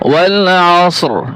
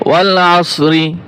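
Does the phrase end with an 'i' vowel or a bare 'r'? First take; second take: bare r; i vowel. First: The phrase ends on a bare r sound. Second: The final r is followed by an i vowel. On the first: The reader stops at the end of the verse. "শুধু ওরা উচ্চারণ হবে" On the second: The reader continues without stopping. "ওয়াকফ করলে রি হবে না"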